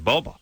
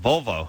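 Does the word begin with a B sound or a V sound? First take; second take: B sound; V sound. First: The word begins with a B sound. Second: The word begins with a V sound.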